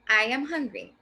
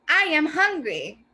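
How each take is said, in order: First: It is said calmly without loud exaggeration. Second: It is said loudly with exaggerated expression. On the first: The person simply states that they are hungry. "a more toned out expression" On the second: The person is shouting that they are hungry. "with a little bit more of an expression"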